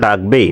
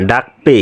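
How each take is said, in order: First: "ডাকবে" with a voiced b, dak-be; প্রমিত উচ্চারণ. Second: "ডাকপে" with k-p, dak-pe; আঞ্চলিক উচ্চারণ. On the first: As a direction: standard "ডাকবে", ending in be. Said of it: "প্রমিত উচ্চারণ লিখব". (প্রমিত উচ্চারণে "ডাকবে") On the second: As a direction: regional "ডাকপে", ending in pe. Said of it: "আঞ্চলিক ভাষায় ডাকপে". (আঞ্চলিক টানে "ডাকপে") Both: Shown as a demonstration.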